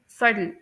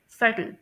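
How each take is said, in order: First: सटल with the "t" softened almost to "d", like suddle; American subtle. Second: सटल with a crisp "t", like suttle; British subtle. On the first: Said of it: "टी की sound ... soft डी की sound". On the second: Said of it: "UK में pronounce करते हैं". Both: Shown as a demonstration.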